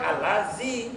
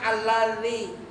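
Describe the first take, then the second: First: The middle consonant is a z sound. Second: The middle consonant is a dh sound. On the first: The speaker calls it wrong. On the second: The speaker calls it right.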